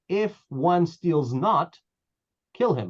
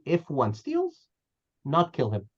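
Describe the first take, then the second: First: The pause comes after the word not. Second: The pause comes after the word steals. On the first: Anyone who does not steal must be killed. The speaker calls it wrong. "How about if you read it this way?" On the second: A thief is not to be killed. The speaker calls it right. "So the music would be"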